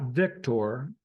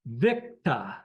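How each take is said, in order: First: Victor with a full -tor ending; wrong pronunciation shown. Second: Victor as VIK-tah, r dropped; corrected pronunciation. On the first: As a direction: say "Victor" as VIK-tor, r sounded. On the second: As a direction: hit VIK in "Victor", then end on tah. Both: Shown as a demonstration. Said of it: "not Victor".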